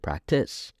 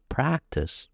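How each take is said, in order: First: The stress falls on the second syllable. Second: The stress falls on the first syllable.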